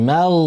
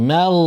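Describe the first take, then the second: The two takes are said the same way.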